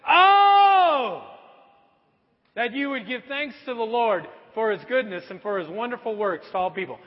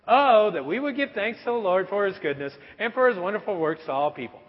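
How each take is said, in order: First: The opening oh is loud and dramatic. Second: The opening oh is flat and unemphatic.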